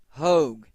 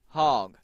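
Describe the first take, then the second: First: The vowel is a long 'oh', rhyming with rogue. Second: The vowel is short, rhyming with dog. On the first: The speaker calls it right. "It is Hogue" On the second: The speaker calls it wrong. "not Hog"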